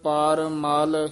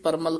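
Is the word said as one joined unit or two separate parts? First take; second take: separate; joined. First: The two parts are said with a slight break. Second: The two parts run together without a break. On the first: The speaker calls it right. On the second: The speaker calls it wrong.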